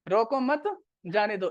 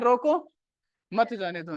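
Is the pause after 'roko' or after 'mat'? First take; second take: after mat; after roko. First: The pause comes after 'mat'. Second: The pause comes after 'roko'.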